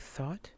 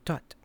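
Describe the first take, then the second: First: It begins with a soft 'th' sound. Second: It begins with a hard 't' sound. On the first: "I say thought" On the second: "They shorten the vowel and they drop the H"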